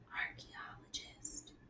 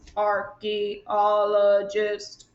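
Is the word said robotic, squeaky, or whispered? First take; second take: whispered; robotic. First: The word is whispered without full voice. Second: The word is said in a flat mechanical voice. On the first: "Can you say that in a whisper voice?" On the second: "Can you say it in a robot voice?"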